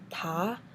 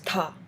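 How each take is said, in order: First: It is said with the second tone. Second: It is said with the fourth tone. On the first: "And second is" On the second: "And fourth is"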